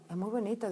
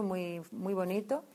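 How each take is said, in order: First: Said in the usual way. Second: Drawn out "muy, muy bonito", each word weighed; slow emphasis on "muy, muy bonito". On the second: Shown as a demonstration. Telling the sisters their work was "muy, muy bonito", slow and emphatic. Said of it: "o sea, muy bonito".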